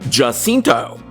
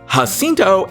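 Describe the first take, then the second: First: The name begins with a J sound. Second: The name begins with an H sound. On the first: The speaker calls it wrong. "and not Jacinto" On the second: The speaker calls it right. "the letter J in Spanish is pronounced like the letter H in English"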